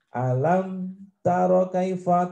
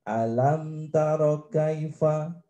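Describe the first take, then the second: First: The words are broken up rather than flowing. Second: The words flow together without a break. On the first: The speaker calls it wrong. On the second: The speaker calls it right. "tetap mengalir, menyambung terus"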